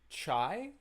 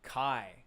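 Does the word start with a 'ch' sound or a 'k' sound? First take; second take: ch; k. First: The word begins with a 'ch' sound. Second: The word begins with a 'k' sound. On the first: The speaker calls it wrong. "Is that chai?" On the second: The speaker calls it right. "It's pronounced Kai"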